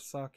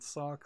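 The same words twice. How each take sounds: First: The vowel is the short 'u' of suck. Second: The vowel is the open 'o' of sock. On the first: "as in S U C K" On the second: "like S O C K"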